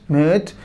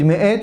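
First: The glottal catch is dropped, sounding like one syllable. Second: The glottal catch between the vowels is clearly pronounced. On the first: The speaker calls it wrong. "זה נשמע כמו מת" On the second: The speaker calls it right. "מי שלא יקפיד להגיד מעט"

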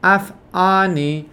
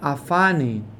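First: A glottal stop separates the two words. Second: The aleph is swallowed, linking the two words. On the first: The speaker calls it right. "עכשיו אמרתי א'" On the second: The speaker calls it wrong. "בקלות אני אומר אף אני"

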